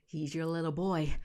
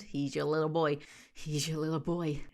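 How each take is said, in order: First: Put-on her own dramatic take on "boy"; acted reading, landing "boy" with a fall; hammed-up actor read. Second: Mimicking the guy's falling tune on boy; a lower, mocking take that drops on "boy"; mocking his inflection. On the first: Shown as a demonstration. Vlogger shows how she would deliver the line, hammed up. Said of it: "I should be an actor". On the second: Vlogger mocks the narrator's tone, imitating his falling inflection. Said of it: "I don't like the inflection in his tone at the end".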